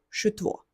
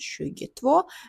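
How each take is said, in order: First: The first part is cut to one syllable. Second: The first part is said in full, two syllables. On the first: "дуже часто в розмовному мовленні кажуть просто шу" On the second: "додаємо шугі ет, шугі тво"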